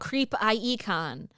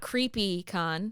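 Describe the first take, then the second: First: The middle sounds like the letter I. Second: The first part sounds like the word creepy. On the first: The speaker calls it right. "thank you for saying it correctly" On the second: The speaker calls it wrong. "It's not creepy con"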